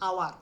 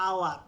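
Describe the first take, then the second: The two takes are said the same way.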